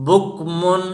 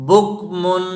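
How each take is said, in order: No difference in how they are said.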